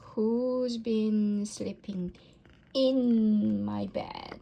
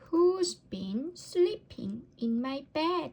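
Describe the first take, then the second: First: It is said in a deep, gruff voice. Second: It is said in a tiny, squeaky voice. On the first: A big father bear is speaking. "growled Father Bear in his great gruff voice" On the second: A little baby bear is speaking. "squeaked Baby Bear in her tiny voice"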